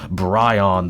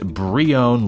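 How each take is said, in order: First: The first syllable sounds like 'bry'. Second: The first syllable sounds like 'bree'. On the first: The speaker calls it wrong. "not Bryon the way I was pronouncing it" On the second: The speaker calls it right. "it's pronounced Brion like the cheese"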